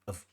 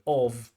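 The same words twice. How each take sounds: First: The word is said with a reduced vowel. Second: The word is said with a full vowel. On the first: "weak forms" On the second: "we have strong forms"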